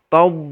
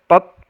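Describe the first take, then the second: First: The consonant sound keeps flowing after the vowel. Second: The consonant sound is cut off with no flow. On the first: The speaker calls it right. "ada suara yang keluar tob begitu" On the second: The speaker calls it wrong. "Jadi tidak boleh kita baca tot tat"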